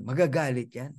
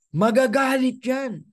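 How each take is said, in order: First: Said in the usual way. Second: High, slow, stretched MAGAGALIT; "magagalit" pitched up and drawn out; emphatic warning. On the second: Acted. Predicting rivals will get angry.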